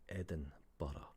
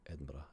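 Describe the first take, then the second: First: It is said slowly, with every syllable clear. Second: It is said quickly, with syllables run together. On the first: "if you say it clearly and you pronounce it properly" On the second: "will say it faster"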